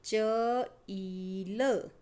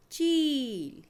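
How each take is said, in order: First: चील with the ई dragged out very slowly; slow stretched syllables. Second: चील said whole, higher and louder; crisp final reading. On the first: Teacher to children, stretching the vowel in चील. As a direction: hold the ई of चील long before the final word. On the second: Teacher to children, saying चील as a whole word. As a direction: land चील as a finished word. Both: Shown as a demonstration. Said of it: "बड़ी की मात्रा वाले शब्द".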